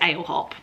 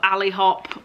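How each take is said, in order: First: The first part sounds like 'ale'. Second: The first part sounds like 'alley'. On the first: This is the speaker's own habit. "how I pronounce it is" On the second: This may be how others say it.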